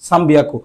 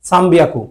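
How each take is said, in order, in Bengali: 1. 'byaku'-এর আগে ম ধ্বনি আসে। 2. 'byaku'-এর আগে ম ধ্বনি আসে।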